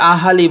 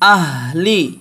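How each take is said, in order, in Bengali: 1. h আর l-এর মাঝে একটি অতিরিক্ত স্বরধ্বনি আসে। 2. h সরাসরি l-এ গিয়ে মেশে। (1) "অনেকে আহালি বলে" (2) "এখানে হবে আহ আহ লি"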